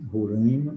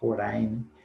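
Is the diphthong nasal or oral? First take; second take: nasal; oral. First: The diphthong ai is nasal. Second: The diphthong ai is oral. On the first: "com som nasal, como em mãe" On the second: "ou com som oral, como em pai"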